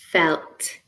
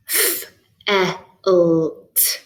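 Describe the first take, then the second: First: Said in the usual way. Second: F, e, l, t as drawn-out single sounds; separated phonemes. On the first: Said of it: "See if you can blend this word". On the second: Shown as a demonstration. Teacher giving four phonemes to blend, separated phonemes. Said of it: "I'm going to give you four phonemes".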